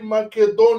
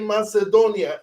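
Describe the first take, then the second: First: It is said with the Macedonian pronunciation. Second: It is said with the English pronunciation. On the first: "In Macedonian, we say Macedonia" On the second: "In English, you say Macedonia, M A C"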